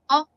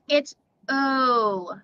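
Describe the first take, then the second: First: The vowel is short and rounded. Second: The vowel is long and drawn out. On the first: "short vowel O. It sounds like O" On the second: "when it's long"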